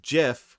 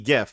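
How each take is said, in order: First: It begins with a soft J-like G sound. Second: It begins with a hard G sound. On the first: "pronounced GIF with a soft G" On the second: "It has to be GIF"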